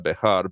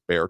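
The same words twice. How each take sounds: First: The name is pronounced the speaker's local way. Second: The name is pronounced the county residents' way. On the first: This is how people in the speaker's area say it. "around here we'd say it uh, Bexar" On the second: This is how the people of that county say it. "Bexar County is the way they say it"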